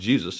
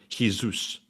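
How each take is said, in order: First: It is said with an English pronunciation. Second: It is said with a Spanish pronunciation.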